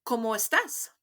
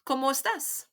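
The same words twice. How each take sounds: First: Whispered "¿Cómo estás?" with a rising question tune; teacher whispers "¿Cómo estás?" for students to echo; model for repeating. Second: Voiced "¿Cómo estás?" with the question tune rising at the end; teacher's voiced model of "¿Cómo estás?"; model for repeating. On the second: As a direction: say "¿Cómo estás?" clearly for the class to copy. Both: Shown as a demonstration. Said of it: "Repeat after me".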